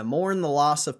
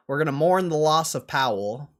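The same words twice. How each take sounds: First: Hushed mock mourning; whispered. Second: Loud mock mourning. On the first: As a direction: whisper it solemnly. Repeated as whisper.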